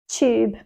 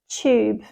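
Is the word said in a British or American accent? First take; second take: British; British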